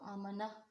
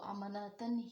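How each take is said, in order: First: The word ends with a soft 'h' sound. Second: The word ends with a full 'tan' sound. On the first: The reader stops on this word. The speaker calls it right. "वक्फ करते हुए इसको आमना यानी कि हास हमने इसको बदल दिया है हा से" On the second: The reader does not stop on this word. The speaker calls it wrong. "वो वक्फ करते भी इसको अमानतन ही पढ़ रहे होते हैं और ऐसा पढ़ना गलत है"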